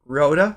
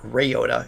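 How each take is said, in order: First: The name begins with a 'ryo' sound. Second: The name begins with a 'ray' sound. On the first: The speaker calls it right. "It's R Y" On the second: The speaker calls it wrong. "It's not Ryota. It's R Y, not R A Y"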